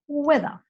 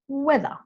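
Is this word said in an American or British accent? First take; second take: British; British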